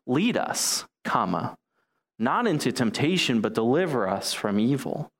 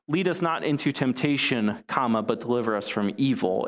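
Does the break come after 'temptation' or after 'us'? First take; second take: us; temptation. First: The break comes right after 'lead us'. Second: The break comes after 'temptation'.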